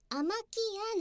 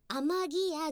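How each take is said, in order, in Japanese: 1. 2番目の音節は無声音のkです。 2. 2番目の音節は有声音のgです。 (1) "名前は濁らせないでアマキアなんです" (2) "アマギアじゃなくて"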